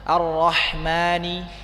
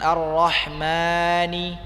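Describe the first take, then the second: First: The long vowel is held for two counts only. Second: The long vowel is stretched out too long. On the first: The speaker calls it right. "hanya dua harokat saja" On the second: The speaker calls it wrong. "jangan dipanjangkan"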